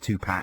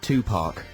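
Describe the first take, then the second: First: The second syllable does not sound like 'park'. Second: The second syllable sounds like the word 'park'.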